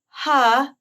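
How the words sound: The vowel starts with audible breath before it.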